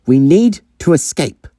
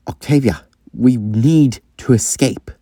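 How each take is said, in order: First: Higher-pitched, disbelieving character voice; high, taken-aback quote of the other; incredulous echo. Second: Sean. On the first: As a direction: repeat it back in acted astonishment. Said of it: "did you just say". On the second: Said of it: "actually shows that he cares". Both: Acted.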